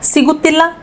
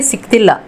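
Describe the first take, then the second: First: The vowel after the first syllable is pronounced. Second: The vowel after the first syllable is dropped.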